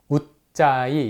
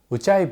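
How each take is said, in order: First: The middle consonant is a plain, lax sound. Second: The middle consonant is a tense sound. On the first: The speaker calls it wrong. "잘못 발음하는 경우가 많습니다" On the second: The speaker calls it right. "그 된소리를 표현하기 위해서"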